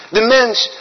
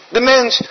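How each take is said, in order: The two takes are said the same way.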